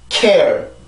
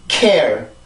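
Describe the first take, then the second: Both takes have the same delivery.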